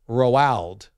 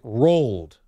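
First: It sounds like Ronald without the n. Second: It sounds like the word rolled. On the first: "like Ronald, Roald without the N" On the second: "like R-O-L-L-E-D"

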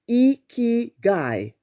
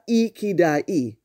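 First: The third consonant is a g sound. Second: The third consonant is a d sound. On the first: The speaker calls it right. "The correct pronunciation is Ikigai" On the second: The speaker calls it wrong. "not Ikidai"

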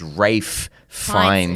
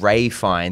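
First: The first name sounds like 'Rafe', with f. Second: The first name sounds like 'Ray', no f. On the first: The speaker calls it right. "it's Rafe Fiennes" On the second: The speaker calls it wrong. "So it's not Ray Fiennes"

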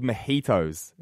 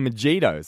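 First: The j is not said like the j in jump. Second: The j is said like the j in jump. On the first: The word is said the way it is said in Spanish. The speaker calls it right. "the J is like silent, ... it's just the way it's pronounced as like a Mexican drink" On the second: The word is read the way it is spelled. The speaker calls it wrong. "no, it's got a J in it"

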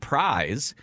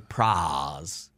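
First: Prize is said in a standard accent. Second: Prize is said in an old Southern accent. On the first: "instead of saying prize" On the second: "they would say prize"

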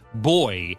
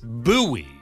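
First: It is said the British way, like boy. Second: It is said the American way, boo-ee.

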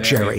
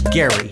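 First: The name starts with a soft J sound. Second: The name starts with a hard G sound. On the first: The speaker calls it wrong. "not Jerry" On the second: The speaker calls it right. "It's a hard G"

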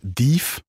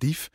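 First: The vowel is drawn out long. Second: The vowel is short and sharp. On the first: The speaker calls it wrong. "dat we veel te lang uitspreken" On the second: The speaker calls it right. "Maar dief, zo dat"

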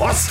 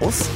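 First: It is said in an upbeat, high-energy way. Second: It is said in a gloomy, low-energy way.

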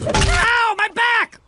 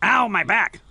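First: It sounds like real pain. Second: It sounds fake and half-laughing.

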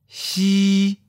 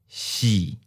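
First: The pitch stays level and high. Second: The pitch starts mid and falls. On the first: "High flat. First tone" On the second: "Mid falling. Third tone"

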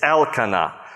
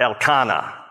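First: The stress is on the first syllable, El. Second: The stress is on a later syllable. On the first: The speaker calls it right. "the emphasis is always on the name of God part of someone's name. El is the prefix" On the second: The speaker calls it wrong. "not Elkanah"

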